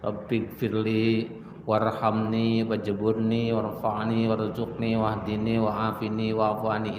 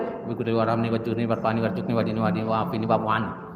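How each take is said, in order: First: It is recited calmly and slowly. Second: It is recited at the fastest pace. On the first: "Apalagi dibacanya dengan tenang" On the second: "Ada lagi yang lebih cepat dari itu"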